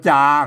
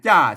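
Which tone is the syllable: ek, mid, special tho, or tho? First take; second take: mid; tho. First: The syllable is said with the plain sǎaman tone. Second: The syllable is said with the ordinary tho tone. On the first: "เพิ่นอ่านว่าจาครับเสียงสามัญ" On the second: "ใส่ไม่โทจ้าจ้าเสียงโทปกติ"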